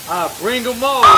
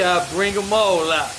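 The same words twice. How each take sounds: First: Louder, rising challenge to doubters; emphatic repeat. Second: Said in the usual way. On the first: Real, not acted. Vlogger daring doubting viewers, louder rising challenge. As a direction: throw it at the viewers. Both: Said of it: "Y'all don't believe me".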